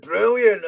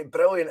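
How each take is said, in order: First: Brilliant rolled out in a broad Scottish accent, a touch louder with a falling end; big Scottish brilliant. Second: Said in the usual way. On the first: Shown as a demonstration. Podcaster showing fans his Scottish way with the word, broad Scottish. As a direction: give Brilliant the full Glasgow treatment, brr-ILL-yant. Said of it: "I'm not trying to sound like Billy Connolly". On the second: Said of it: "It's when I say brilliant".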